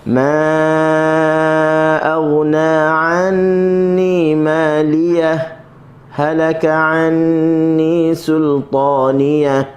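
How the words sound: It has a brief breathless stop after ماليه.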